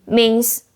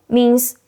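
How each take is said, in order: Both takes have the same delivery.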